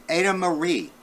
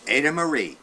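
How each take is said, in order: Both takes have the same delivery.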